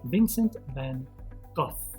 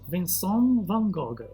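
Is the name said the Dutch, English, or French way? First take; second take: English; French. First: The name is said the English way, ending in F. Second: The name is said with a French pronunciation. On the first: "They say the F sound" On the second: "In France, people pronounce his name like this"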